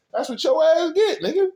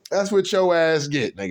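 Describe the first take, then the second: First: Pitched way up, mocking the heartbroken guy; high emphatic jab. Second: Said in the usual way. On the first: Real, not acted. Mocking a heartbroken man, he jabs up high. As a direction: throw it up high like a taunt.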